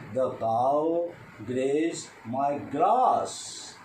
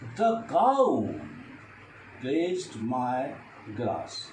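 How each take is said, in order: First: The stress falls on the word grass. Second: The stress falls on the word cow. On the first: The cow grazed nothing else but grass. "Now I stress on grass" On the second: No other animal but the cow did it. "If I stress the cow"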